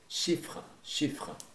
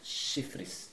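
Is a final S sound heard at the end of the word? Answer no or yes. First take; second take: no; yes. First: No final S sound is pronounced. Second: A final S sound is pronounced. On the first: The speaker calls it right. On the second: The speaker calls it wrong.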